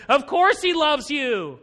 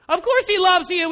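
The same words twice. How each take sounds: First: Slow complaining. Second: Of course he loves you, pitched high and loud; louder complaining repeat. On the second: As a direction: escalate the whine, push "course" higher. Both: Retold or imitated. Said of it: "And he's complaining".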